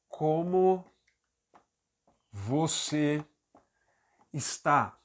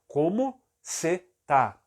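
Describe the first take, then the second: First: 'Está' is said in full. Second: 'Está' is shortened to 'tá'. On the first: This is the formally correct sentence. "A frase correta seria" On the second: This is the casual everyday way of speaking. "Olha o que eu falei"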